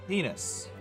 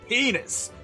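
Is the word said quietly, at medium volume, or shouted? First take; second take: medium; shouted. First: It is said at a moderate volume. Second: It is screamed very loudly.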